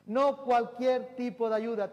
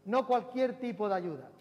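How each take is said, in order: First: Slow, louder, every word of "No cualquier tipo de ayuda" weighted; drawn-out, even louder second call; slower emphatic repeat. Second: Loud preaching with a push on "No"; first, brisker call of "No cualquier tipo de ayuda"; emphatic repeat. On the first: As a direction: lean on "No" and stretch the line out. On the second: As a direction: hit "No" hard and keep it driving. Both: Shown as a demonstration. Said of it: "repeats it for emphasis".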